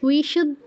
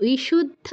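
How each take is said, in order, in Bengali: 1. প্রথম ব্যঞ্জনটি একটি নরম w ধ্বনি। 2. প্রথম ব্যঞ্জনটি একটি নরম w ধ্বনি।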